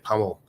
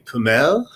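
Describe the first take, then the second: First: It is said the way Australians say it. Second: It is said the way Europeans say it.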